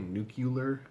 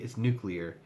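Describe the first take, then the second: First: The word is said like 'nucular'. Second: The word is said like 'nuclear'. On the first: The speaker calls it wrong. "What do people who say wrong say?" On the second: The speaker calls it right. "It's like no, idiot"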